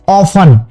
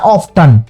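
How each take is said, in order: First: The t sound is left silent. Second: The t sound is clearly pronounced. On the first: The speaker calls it right. "तो टी उसमें silent है।" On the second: The speaker calls it wrong. "पहली बार अक्सर क्या बोलता है बच्चा"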